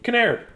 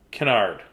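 First: "Kinnaird" said kuh-NAIRD; "Kinnaird" with an "air" vowel, higher pitch; corrected pronunciation. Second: "Kennard" said kuh-NARD; "Kennard" as kuh-NARD, falling; first guess pronunciation. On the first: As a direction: say "Kinnaird" to rhyme with paired. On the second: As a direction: say "Kennard" with an "ar" as in hard. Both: Shown as a demonstration. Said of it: "Kinnaird, I think".

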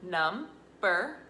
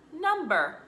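First: "Number" split as num-ber; syllable by syllable. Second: Said in the usual way. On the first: Shown as a demonstration. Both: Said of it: "chop and then we're gonna blend".

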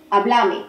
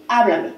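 First: "Háblame" stressed on the middle syllable, BLA; Argentine stress, hablAme. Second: "Háblame" stressed on HA; stress on first syllable. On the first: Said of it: "en Argentina podrían decir". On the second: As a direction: say "Háblame" as HA-bla-me. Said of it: "y yo te puedo decir". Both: Shown as a demonstration.

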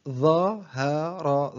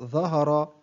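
First: Very slow, each syllable drawn out separately; broken into syllables. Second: Said in the usual way. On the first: Shown as a demonstration. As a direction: sound out the word syllable by syllable. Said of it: "تقطع الكلمة إلى حروف". (تقطيع الكلمة ببطء شديد مقطعًا مقطعًا) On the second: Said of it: "تقطع الكلمة".

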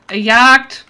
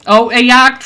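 First: Loud, high urgent alarm; panicked warning. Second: High, loud urgent alarm; panicked warning. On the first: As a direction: warn them fast. Repeats warning. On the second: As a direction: shout the danger. Warns teammates of hunter. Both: Real, not acted.

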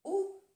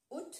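First: "Août" as a bare high "oo"; silent T. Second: "août" as a short "oot"; T pronounced. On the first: Teacher recapping the month's first option, "Août" as "oo". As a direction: say "Août" without A or T. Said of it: "O se dice U". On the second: Teacher recapping the month's second option, "août" as "oot". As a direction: end "août" on a sounded T. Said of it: "o se pronuncia la T". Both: Shown as a demonstration.

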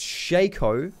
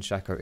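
First: "Shaco" as SHAY-koh, drawn out and higher; long-a pronunciation. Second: "Shaco" as SHACK-oh; short-a pronunciation. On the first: Streamer mocking the wrong way for viewers, long-a pronunciation. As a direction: stretch "Shaco" into a slow, high SHAY-koh. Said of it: "you're wrong". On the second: Streamer giving viewers the right way, short-a pronunciation. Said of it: "if you're right". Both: Shown as a demonstration.

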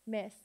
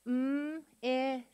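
First: Said in the usual way. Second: M-I-S as held mmm, short ih, long sss; each sound of M-I-S alone, not letter names. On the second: Shown as a demonstration. Teacher sounding out with the class, M-I-S sound by sound. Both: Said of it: "let's sound it out together".

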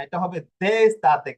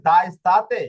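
First: দে স্তাতে with the vowel এ, stated firmly; correct pronunciation. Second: দা স্তাতে with the vowel আ, rising as a question; wrong pronunciation. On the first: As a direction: say দে স্তাতে as the right form. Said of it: "দা স্তাতে হবে না". (সঠিক উচ্চারণ) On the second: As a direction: try দা স্তাতে as a wrong guess. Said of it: "না, এখানে আবার দা স্তাতে হবে না". (ভুল উচ্চারণ, প্রশ্নের সুরে) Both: Shown as a demonstration.

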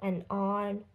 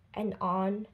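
The two takes are said the same way.

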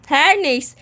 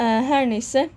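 First: "Her neyse" punched harder, falling at the end; emphatic repeat. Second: Said in the usual way. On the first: Pretend. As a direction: hit "Her neyse" with more force.

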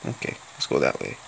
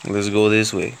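First: Put-on quick whispered aside in the Russian accent; whispered, sneaking down the street. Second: Said in the usual way. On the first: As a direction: hush it to yourself, fast. Quick muttered aside while playing. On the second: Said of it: "I'm going to sound like this".

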